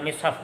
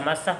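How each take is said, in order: First: The first syllable has the vowel i. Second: The first syllable has the vowel a. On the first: "ada mishaf bacanya ya" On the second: "ada mashaf"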